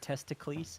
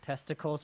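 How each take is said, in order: First: It is said the way Greek names are said. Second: It is said the normal English way.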